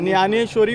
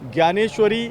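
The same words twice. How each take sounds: First: The word is pronounced the Marathi way. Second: The word is pronounced the Hindi way. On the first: "Marathi में" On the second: "Hindi में बोलते हैं"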